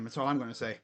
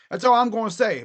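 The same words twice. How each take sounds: First: Low, soft, falling; low mutter. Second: All punched louder; stress on all. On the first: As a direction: say it under your breath. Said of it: "That's all I'm gonna say, boy". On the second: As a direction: hit the word all firmly. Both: Shown as a demonstration.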